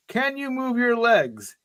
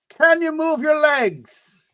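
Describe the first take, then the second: First: A hint of an Irish brogue, slow and higher; lightly voiced Irish rescuer, taking his time. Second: Big, slow, much higher Irish brogue; hammed-up Irish brogue. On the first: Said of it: "he asks you in an Irish brogue". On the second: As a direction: ham up the Irish rescuer's brogue, drawing it out. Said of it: "in an Irish brogue".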